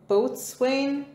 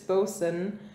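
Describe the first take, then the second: First: It is said as spelled, like boat-swain. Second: It is said shortened, like bosun. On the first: The speaker calls it wrong. "I'm gonna say this wrong because I do it every single time" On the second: The speaker calls it right.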